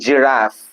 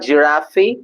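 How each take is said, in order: First: The word ends with a clear f sound. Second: The word ends without a clear f sound. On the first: The speaker calls it right. "Just if sound at the end" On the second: The speaker calls it wrong. "It's not giraffe"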